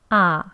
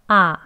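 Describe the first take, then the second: The two takes are said the same way.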